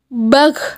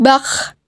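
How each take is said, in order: First: The final consonant sounds thick and deep. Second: The final consonant sounds thin and light. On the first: The speaker calls it right. "pangkal lisan angkat ke belakang" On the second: The speaker calls it wrong.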